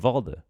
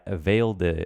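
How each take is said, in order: First: The name is said with a Danish-style pronunciation. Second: The name is said with an English-style pronunciation. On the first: The speaker calls it right. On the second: The speaker calls it wrong. "Instead of saying"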